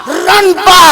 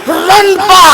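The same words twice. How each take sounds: Both takes have the same delivery.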